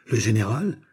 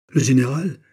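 First: Milder, understated astonished echo. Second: Higher, louder startled exclamation; startled cry. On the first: Soldiers repeat the officer's discovery, astonished. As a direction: repeat it questioningly, taken aback. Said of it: "répétèrent les soldats". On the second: Officer recognises his general and drops his sword, startled cry. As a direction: cry it out in alarm. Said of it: "cria Digby en laissant tomber son épée". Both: A narrator's reading.

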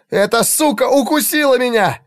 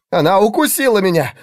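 First: Much higher, furious yell. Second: Loud, higher cry of pain; pained shout. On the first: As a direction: scream it, the bite now sinking in. (срывающийся визгливый крик) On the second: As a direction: yell it as if just bitten. (испуганный крик от боли) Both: A narrator's reading. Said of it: "донёсся голос Игнация".

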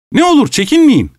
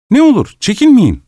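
First: High, strained "Ne olur çekinmeyin"; host near hysteria, urging the guest on; frantic plea. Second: Urging. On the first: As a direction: beg with mock hospitality at breaking point. Host's frantic climax. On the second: Host urging guest to eat. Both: Acted.

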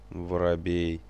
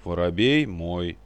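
First: Said in the usual way. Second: Louder, slowed stubborn «Воробей мой»; stubborn insistence. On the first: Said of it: "нехотя отозвался". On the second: A narrator's reading. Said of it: "упрямо набычившись".

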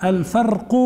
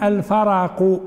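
First: الفرق said "al-farqu", no vowel after the r; sukun on ra. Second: الفرق said "al-faraqu", a vowel after the r; fatha on ra. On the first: Teacher showing Yahya al-Laythi's reading, الفرق as "al-farqu". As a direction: run r straight into q in الفرق. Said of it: "فرواه بسكون الراء". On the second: Teacher showing the other narrators' reading, الفرق as "al-faraqu". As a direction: open the r in الفرق: fa-ra-qu. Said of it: "بفتحتين". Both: Shown as a demonstration.

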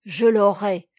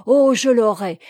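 First: Loud, determined declaration; roused, acted determination; growing animated. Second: Much louder, impassioned vow; fired-up exclamation; more animated. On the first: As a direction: declare it with firm resolve. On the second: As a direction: burst out with passionate resolve. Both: A narrator's reading. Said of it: "reprit-il en s'animant".

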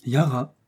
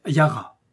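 First: Mildly intrigued echo of the name; intrigued repeat. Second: Said in the usual way. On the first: A narrator's reading. Little mouse hearing her new name, mildly intrigued. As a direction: repeat it with a touch of wonder. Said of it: "répéta intriguée la petite souris". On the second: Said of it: "ils se tournèrent tous les deux vers l'armoire en disant".

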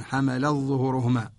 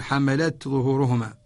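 First: حملت ظهورهما with the تاء merged into ظهورهما; حملت ظهورهما run together, no ت sounded; ظهورهما joined straight onto حمل with the تاء assimilated; Warsh's merged reading. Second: حملت ظهورهما with the تاء of حملت said clearly before ظهورهما; حملت ظهورهما, every letter sounded, ت then ظ; ظهورهما after a clearly pronounced تاء in حملت; Qalun's clear reading. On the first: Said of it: "فيأخذ بالإدغام". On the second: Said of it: "يظهر قالون". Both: Shown as a demonstration.

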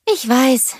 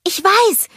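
First: Sighed admission, higher than narration; mild sigh. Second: Very high, loud burst of an idea; eager call. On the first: Sister admitting a useless purchase, mildly sighed. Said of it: "seufzte Anna". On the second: Sister struck by an idea, high loud call. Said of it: "rief Anna". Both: A narrator's reading.

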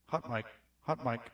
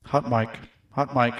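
First: Soft, low-level test of the mic; quiet mic check. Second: Mic test at full level; full-voice mic check. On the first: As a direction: murmur the check close and quiet. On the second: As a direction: say it out at normal strength to test the mic. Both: Shown as a demonstration. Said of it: "mic check, testing levels".

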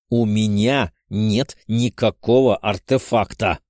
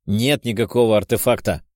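First: «У меня нет никакого артефакта» with every word hammered out slowly and separately; slowly stamp out each word of «нет никакого артефакта»; each word clipped. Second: Spat out angrily. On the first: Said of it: "чеканя каждое слово". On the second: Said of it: "зло выплюнул я". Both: A narrator's reading.

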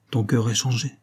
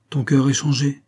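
First: A mildly gentle observation; understated tenderness. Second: Higher, firmer restatement; mildly emphatic; repeated observation. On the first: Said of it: "dit-elle doucement". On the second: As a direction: repeat it with more weight and lift. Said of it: "répéta Florence". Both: A narrator's reading.

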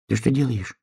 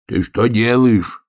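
First: Hedgehog asking. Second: Bear cub shouting. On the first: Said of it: "спросил ёжик". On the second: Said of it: "крикнул он". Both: A narrator's reading.

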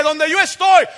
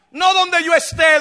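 First: Loud, high punch on "estoy"; shouted emphasis falling on "estoy"; stress on ESTOY. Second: Raised voice leaning on "esté"; loud emphasis on "esté"; stress on ESTÉ. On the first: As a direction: proclaim "estoy" as the correct word. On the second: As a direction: hit "esté" as the rejected word. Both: Shown as a demonstration.

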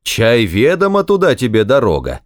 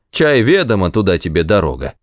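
First: Sing-out taunt parroting an official; mocking mimicry. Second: Curt send-off, dropping quickly at the end; sharp dismissal. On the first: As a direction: narrator voicing a jeering imitation. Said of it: "передразнивая воеводу, произнёс насмешливо". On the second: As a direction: narrator voicing an impatient official. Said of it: "резко ответил ему воевода". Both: A narrator's reading.

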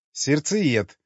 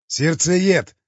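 First: Savoring the word. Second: Loud introduction. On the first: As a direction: roll the word slowly, tasting it. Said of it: "брюнетка словно смаковала это слово". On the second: Krest loudly introducing himself to the women. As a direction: proudly announce the name, a bit louder. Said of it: "громко представился Крест". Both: A narrator's reading.

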